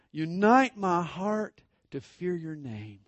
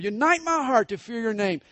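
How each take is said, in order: First: Said in the usual way. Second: Verse prayed higher and louder; fervent prayer. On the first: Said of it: "I love the next line". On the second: Acted. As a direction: lift the verse up as a plea.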